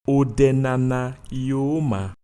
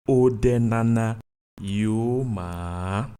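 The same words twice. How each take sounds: First: The final vowel is short and not repeated. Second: The final vowel is repeated and drawn out. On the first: This name is good. "This name is good" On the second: This name is not good. "This name is not good"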